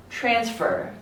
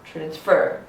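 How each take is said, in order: First: TRANSfer, strong first syllable, falling end; stress on first syllable. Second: TransFER, weight on the last syllable; stress on second syllable. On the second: Teacher offering the other option, transfer stressed on FER. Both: Shown as a demonstration. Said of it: "where is the stress?".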